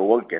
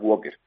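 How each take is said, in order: First: The word is said with an L sound. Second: The word is said without an L sound. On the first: This is the plain Spanish reading. "en cristiano" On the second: This is the English pronunciation. "en inglés la L no se produce, no se pronuncia, entonces walker"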